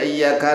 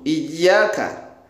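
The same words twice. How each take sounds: First: The 'y' sound is short and single. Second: The 'y' sound is held and doubled. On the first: It means only to the sunlight. The speaker calls it wrong. "tanpa tasdid" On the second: It means only to you. The speaker calls it right. "Ya-nya wajib ditasydid"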